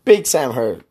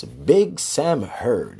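First: Big Sam Heard, punched hard on Big and falling; punchy show name sign-off. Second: Slow drawn-out sign-off. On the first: Host trying how to say his show name, punchy. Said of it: "No, I don't say it like that either". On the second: Host settling on how to say his show name, slow and drawn out. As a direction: draw Big Sam Heard out, slow and settled. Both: Shown as a demonstration.

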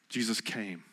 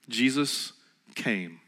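First: Much softer echo, almost breathed; near-whispered repeat. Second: Drawn out and soft, letting it land; slow hushed emphasis. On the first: Preacher repeating to doubters, even softer echo. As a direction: drop to a hush the second time. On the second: Preacher to congregation, slow hushed reveal. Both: Shown as a demonstration. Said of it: "You ready?".

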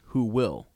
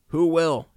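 First: Said in the usual way. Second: High, loud bird-like echo; chiming raven. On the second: A narrator's reading. Talkative raven echoing the commander's question, chiming loudly. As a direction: chime it out high like a talking raven. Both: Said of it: "chimed the talkative raven".

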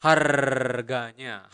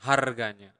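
First: Harganya drawn out slowly with a rolled R; slow rolled R demo. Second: Said in the usual way. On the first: Shown as a demonstration. Teacher to learners, Harganya spoken slowly with a rolled R. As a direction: roll the R in Harganya slowly and clearly. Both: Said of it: "you need to roll your tongue and make that sound".

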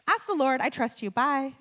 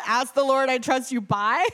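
First: Higher-pitched, cheery quick sign-off; imitated breezy dismissal; breezy brush-off. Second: Loud, higher mocking repeat; laughing, baffled quote-back; incredulous echo. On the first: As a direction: toss it off and hang up. Director brushes her off on call. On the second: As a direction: parrot it back in disbelief. Repeats the answer in disbelief.

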